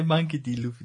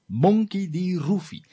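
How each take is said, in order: First: The name is said in a plain English accent. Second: The name is said in a Japanese accent. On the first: "The Japanese don't say" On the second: "They go"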